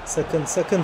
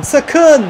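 First: Quiet, tense repeated "Sakın"; low warning. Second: Loud, high-pitched "sakın"; alarmed shout. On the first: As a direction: warn under your breath. Warning as rival threatens goal. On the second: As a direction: suddenly cry out in alarm. Alarm at a rival's shot. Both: Real, not acted.

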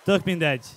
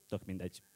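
First: Loud, projected declaration; loud dismissal. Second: Very low, soft throwaway; quiet dismissal. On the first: Slam poet declares to the audience it does not matter, loudly. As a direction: throw it out forcefully to the room. Same words restart the closing loudly. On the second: [name] shrugs off his own name, quietly dismissive. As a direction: drop it low, almost to yourself. Subdued punchline after introducing himself. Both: Acted.

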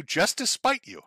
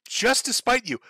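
First: Said in the usual way. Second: Higher, punched "spite"; defiant emphasis on spite; emphatic repeat. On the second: Shown as a demonstration. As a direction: hit "spite" hard and high.

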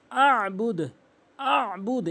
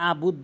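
First: Higher আবুদ with squeezed ayn before b; throaty, held first syllable in আবুদ; correct pressed ayn. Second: আবুদ with a plain open a; ordinary vowel starting আবুদ; mispronounced without ayn. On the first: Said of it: "এভাবে চাপ দিয়ে উচ্চারণ করবেন". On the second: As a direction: say আবুদ with no throat catch. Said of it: "আইনের উচ্চারণ বাদ দিয়ে ফেলে". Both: Shown as a demonstration.

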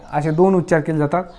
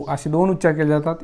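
The two takes are said the same way.

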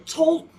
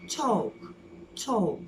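First: "Talk" as a loud "tolk"; wrong talk, l sounded. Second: "Talk." as "tawk", long vowel; silent l in talk. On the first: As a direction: punch out "Talk" with its l pronounced. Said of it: "Talk değil". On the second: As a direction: drop the l of "Talk." and stretch the vowel. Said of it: "L'yi okumuyorsun". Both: Shown as a demonstration.

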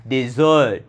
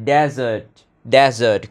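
First: "dessert" with the second syllable stressed, di-ZERT; short "di", then a long strong ZERT in "dessert". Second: "desert" with the first syllable stressed, DE-zert. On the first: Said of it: "Nhấn âm sau". ("dessert" nhấn mạnh âm tiết sau) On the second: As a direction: punch DE in "desert", let -sert fall away short. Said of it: "nhấn âm tiết đầu tiên". ("desert" nhấn mạnh âm tiết đầu) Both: Shown as a demonstration.

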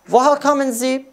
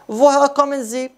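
No difference in how they are said.

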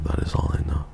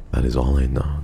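First: Soft breathy whisper. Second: Said in the usual way. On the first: Shown as a demonstration. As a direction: whisper it like a secret. Repeated line said again whispered.

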